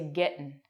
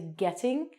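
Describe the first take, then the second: First: The ending of the word is dropped. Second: The ending of the word is fully pronounced. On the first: "we don't say the end of words" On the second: "We don't say"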